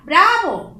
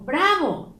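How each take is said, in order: First: A loud, higher cry of Bravo; euphoric cheer. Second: A second Bravo at near normal level; milder euphoric echo. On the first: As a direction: cheer it out with joy. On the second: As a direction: let the cheer settle, still happy. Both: Shown as a demonstration. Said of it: "El segundo es de euforia".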